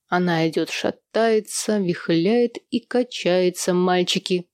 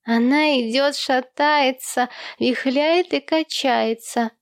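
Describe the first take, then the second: First: Sung, drawl the ditty out with a swing; sung, father's rhyme. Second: Put-on high, slow little-boy chant; child echoing father. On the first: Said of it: "повторил он". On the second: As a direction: pipe up and sing-song it like a child. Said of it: "вторил отцу Томми". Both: A narrator's reading.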